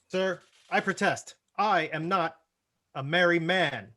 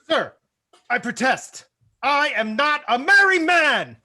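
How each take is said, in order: First: The line is said mildly, without much anger. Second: The line is said with strong indignant anger. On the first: The speaker calls it wrong. "We're going to need a little bit more" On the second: The speaker calls it right. "You were very angry at being a merry man"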